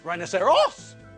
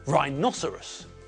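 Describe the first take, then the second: First: The stress is not on the second syllable. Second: The stress is on the second syllable. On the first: The speaker calls it wrong. "and not rhinoceros" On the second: The speaker calls it right. "the stress comes on the second syllable"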